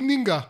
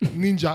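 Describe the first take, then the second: First: The middle consonant is a hard 'g' sound. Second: The middle consonant is a soft 'j' sound. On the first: The speaker is a real Egyptian. The speaker calls it right. "הוא היה צריך להגיד נינגה" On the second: The speaker is not really Egyptian. The speaker calls it wrong. "ברגע ששמעתי אותו אומר ג'ה"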